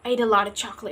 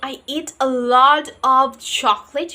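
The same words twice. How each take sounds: First: 'A lot of' is blended into 'a lotta'. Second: Each word of 'a lot of' is said fully. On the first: "you're just saying" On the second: "Instead of saying"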